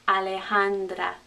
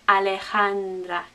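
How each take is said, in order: No difference in how they are said.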